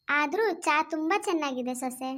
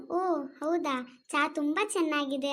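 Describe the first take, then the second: First: Said in the usual way. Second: Drawn-out, overdone praise of the tea, very slow; mock impressed praise. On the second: Shown as a demonstration. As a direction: show how she'd gush "ಓ ಹೌದಾ" slowly. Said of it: "ಅಂತೇನೆ, ಅರ್ಥ ಆಯ್ತಾ?". (ನಿಧಾನವಾದ ಅತಿಯಾದ ಹೊಗಳಿಕೆ)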